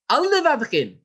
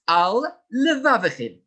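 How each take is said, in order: First: The two words run together without a break. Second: The two words are separated by a short break. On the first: The speaker calls it wrong. "Not al levavchem. This is not correct. It is not one word" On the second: The speaker calls it right. "It is al levavchem"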